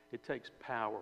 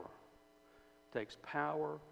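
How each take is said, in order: First: Said in the usual way. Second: "It takes power" drawn out slowly with weight on "power"; slow down and lean on "power"; slow emphatic repeat. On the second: Shown as a demonstration. Preacher repeats the point to the congregation, slow and weighty.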